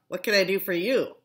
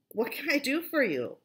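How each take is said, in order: First: The question is asked in an unfriendly tone. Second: The question is asked in a friendly tone.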